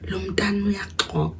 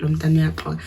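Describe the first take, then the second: First: "Lo mntana uyaxoka" whispered softly, as if heard through a door; overheard whisper. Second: Said in the usual way. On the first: Retold or imitated. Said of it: "I hear my dad saying". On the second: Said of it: "but I heard that part".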